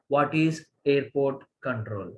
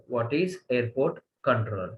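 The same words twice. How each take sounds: The two takes are said the same way.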